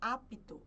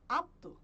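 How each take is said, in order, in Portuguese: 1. O P é pronunciado como som, de forma clara. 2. O P é mudo, não é pronunciado. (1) "a gente não fala" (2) "a gente fala apto"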